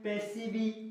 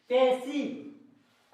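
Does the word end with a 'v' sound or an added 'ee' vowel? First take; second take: ee vowel; v sound. First: The word ends with an extra 'ee' vowel. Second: The word ends cleanly on a 'v' sound. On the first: The speaker calls it wrong. "ऐसे नहीं पढ़ेंगे, ऐसे गलत उच्चारण हो जाएगा।" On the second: The speaker calls it right. "पैसिव ऐसे पढ़ेंगे।"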